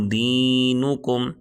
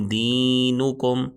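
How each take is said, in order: No difference in how they are said.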